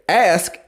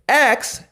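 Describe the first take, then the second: First: The s sound comes before the k sound. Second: The k sound comes before the s sound. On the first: "ask and ax are both correct ways of saying that word" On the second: "A K S"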